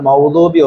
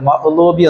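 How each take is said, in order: First: The middle consonant is a w sound. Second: The middle consonant is a glottal stop. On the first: "വാവിന് സുക്കൂൻ കൊടുത്താണ്ട്" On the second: "ഹംസ കൊടുത്താണ്ട് സുക്കൂൻ കൊടുത്താണ്ട്"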